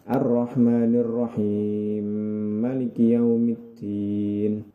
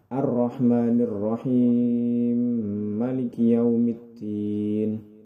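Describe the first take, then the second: First: The merged m is held for two counts. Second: The merged m is held for four counts. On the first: "jika dua harokat" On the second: "Jika empat harokat"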